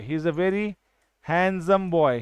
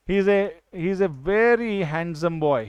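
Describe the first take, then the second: First: Put-on very, pause, then handsome boy; pause before handsome. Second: Slow, even reading of the example sentence. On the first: Teacher pauses before handsome to single out the adjective. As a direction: leave a gap after very so handsome stands out. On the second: Teacher reading an example sentence slowly. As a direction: spell the sentence out slowly for the class. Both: Shown as a demonstration. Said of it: "handsome क्या है?".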